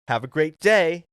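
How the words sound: It sounds curt and mildly threatening.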